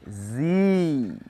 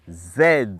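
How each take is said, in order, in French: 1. Il se dit à l'américaine, comme "zee". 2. Il se dit à la britannique, comme "zed". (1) "pour l'anglais américain, nous avons Z" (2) "Pour l'anglais britannique"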